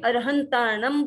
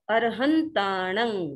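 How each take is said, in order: First: The word ends with a closed m sound. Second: The word ends with a nasal vowel. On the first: "अब कोई अरहंताणम बोलेगा तो भी कोई गलत नहीं है" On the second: "प्राकृत भाषा का उच्चारण"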